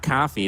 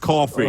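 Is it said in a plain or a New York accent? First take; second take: plain; New York. First: It is said in a plain accent. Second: It is said in a New York accent.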